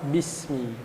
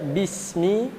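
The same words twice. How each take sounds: First: It is said with flat, neutral lips. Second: It is said with spread, smiling lips. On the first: The speaker calls it wrong. "bismi yang biasa saja mulutnya" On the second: The speaker calls it right. "dibacanya dengan tersenyum"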